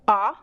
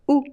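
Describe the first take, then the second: First: The vowel is open, with the mouth wide. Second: The vowel sounds like a short u. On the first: "aberta, which means an open sound" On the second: "it sounds like U"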